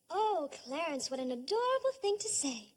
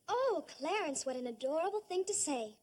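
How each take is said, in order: First: It sounds warm, smiling and really meant. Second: It sounds flat and not really meant.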